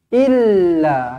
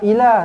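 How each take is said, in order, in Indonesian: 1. Bunyi l digandakan dan ditahan. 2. Bunyi l pendek dan tunggal. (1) "Lekatkan sabdu lam" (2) "Jangan ila. Tak nak"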